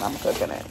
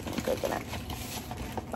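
First: Low voice. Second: Soft breathy whisper. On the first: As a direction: drop the voice down low. First take, low voice. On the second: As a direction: whisper it playfully. Repeated in whisper. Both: Pretend.

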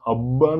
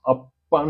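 First: அப்பான்னு with a voiced bb, as "abba"; wrong soft B sound. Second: அப்பான்னு with a crisp unvoiced pp, as "appaannu"; hard P sound. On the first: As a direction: soften the pp in அப்பான்னு to a buzzing bb. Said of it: "சொல்ல மாட்டோம்". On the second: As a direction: hold the lips shut, then pop the pp in அப்பான்னு. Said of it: "சொல்லுவோம்". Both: Shown as a demonstration.

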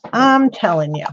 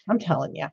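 First: Insistent, with the weight on I'M; stress on I'M. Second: Low, soft aside; under your breath, low and soft; muttered insistence. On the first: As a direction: lean hard on I'M, then drop off. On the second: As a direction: say it quietly, almost to yourself. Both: Real, not acted. Repeats herself for emphasis.

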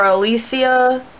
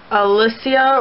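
First: Alicia said uh-LEE-see-uh; long-ee pronunciation. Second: Alicia said uh-LISS-ee-uh; short-i pronunciation. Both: Shown as a demonstration. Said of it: "if I'm not saying your name right".

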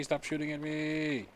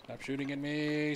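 First: Raised protest again. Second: Raised protest. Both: Real, not acted. Being shot by arrows.

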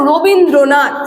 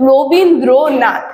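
First: Said in the usual way. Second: Rabindranath slowly, broken into syllables with small pauses; থেমে থেমে উচ্চারণ. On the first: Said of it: "এই যে আমরা যখন এই শব্দটা উচ্চারণ করছি". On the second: Shown as a demonstration. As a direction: say Rabindranath syllable by syllable, pausing after each. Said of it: "দেখো এক এক জায়গায় কিন্তু আমরা থামছি". (রবীন্দ্রনাথ শব্দটা দল ভেঙে ধীরে, থেমে থেমে)

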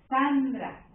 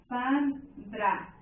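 First: Sandra joined up, leaning on SAN; one word, Sandra, with the first syllable stressed. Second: Sandra broken into San, pause, dra; split into syllables. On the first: Teacher pointing out the tonic syllable, Sandra stressed on SAN. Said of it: "la sílaba tónica está aquí". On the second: Teacher dividing the word Sandra, spoken in separate syllables. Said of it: "Si tú divides esta palabra". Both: Shown as a demonstration.

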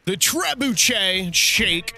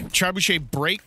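First: "Trebuchet Shake" said very slowly, sounding it out; unsure pronunciation. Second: "Trebuchet Break" said at normal pace with a questioning rise; corrected pronunciation. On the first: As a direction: drag out "Trebuchet Shake" like you're unsure of the word. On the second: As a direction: say "Trebuchet Break" quickly, rising at the end. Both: Real, not acted. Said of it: "I don't even know how to say it".

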